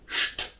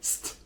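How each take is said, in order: First: The opening sound is said the German way. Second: The opening sound is said the English way. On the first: The speaker calls it right. "in German, S T at the beginning is pronounced like St" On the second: The speaker calls it wrong. "not like St"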